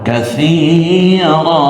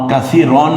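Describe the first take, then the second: First: The word ends with a long -a sound. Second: The word ends with an -an sound. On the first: The speaker calls it right. "এক জবর এবং এক আলিফ টেনে বলতে হবে" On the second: The speaker calls it wrong. "কাসীরন বলবো না"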